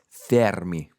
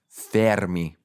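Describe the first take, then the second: First: The name is said with an Italian accent. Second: The name is said with an Italian accent.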